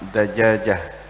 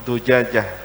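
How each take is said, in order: First: The first vowel is an a sound. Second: The first vowel is a u sound. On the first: The speaker calls it right. "yang paling fasih dibaca fathah" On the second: The speaker calls it wrong. "Tidak boleh dibaca dhammah"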